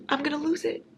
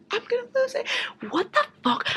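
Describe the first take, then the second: First: High, frustrated whine; higher whine. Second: Very high strained squeal. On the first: Reader whining that the sequel is not out. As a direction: whine it, about to crack. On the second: Reader squealing in frustration over the missing sequel. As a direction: squeal it, losing your mind. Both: Real, not acted.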